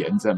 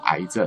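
First: The first syllable is pronounced yan. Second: The first syllable is pronounced ai. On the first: "你说一定要念炎症" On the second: "不能念癌症"

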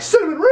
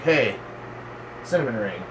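First: It is shouted loud and obnoxiously. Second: It is said casually and quietly.

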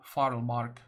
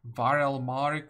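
First: The name begins with an F sound. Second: The name begins with a V sound. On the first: The speaker calls it right. "it's F" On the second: The speaker calls it wrong. "I guess it's not V"

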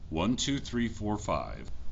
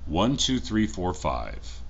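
First: The recording level is set to 70 percent. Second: The recording level is set to 100 percent. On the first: "This is with audio set to 70%" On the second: "Now this is with audio set up to 100%"

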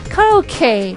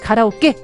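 First: The final vowel glides on into an 'ee' sound. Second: The final vowel ends on a short plain 'e'. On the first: The speaker calls it right. "에 이렇게 좀 빼주는 발음으로 합니다" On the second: The speaker calls it wrong. "에 이렇게 못 끝나고"

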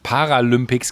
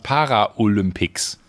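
First: It is said with no 'o' after 'para'. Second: It is said with an extra 'o' after 'para'. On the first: The speaker calls it right. "habe ich nicht Paralympics gesagt" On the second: The speaker calls it wrong. "sondern Paraolympics"

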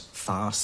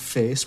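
First: The vowel is an open 'ah' sound. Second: The vowel is a steady, unchanging 'ay'. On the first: "it was farce" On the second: "that monophthong, face"

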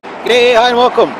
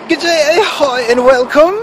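First: It is said in the speaker's normal accent. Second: It is said in a put-on British accent.

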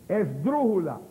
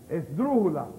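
Both takes have the same delivery.

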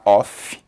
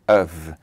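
First: The word is said like 'off'. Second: The word is said like 'of'. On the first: The speaker calls it wrong. "Não se fala off" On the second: The speaker calls it right. "um F só é of, of"

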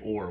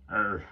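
First: The vowel is a full rounded 'or' sound. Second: The vowel is reduced to an 'er' sound. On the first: "We don't say or" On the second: "where I come from, we say er"

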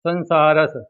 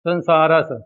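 The two takes are said the same way.

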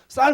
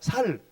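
First: The initial s is tense and strong. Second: The initial s is plain and soft. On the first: The speaker calls it right. "쌀 하라니까" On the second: The speaker calls it wrong. "너 쌀도 못다 경상도구만?"

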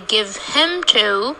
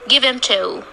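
First: The h in 'him' is pronounced. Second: The h in 'him' is dropped. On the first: The strong form is used. The speaker calls it wrong. "We don't say give him to unless we want to concentrate on the pronoun him" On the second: The weak form is used. The speaker calls it right. "So we say give him to"

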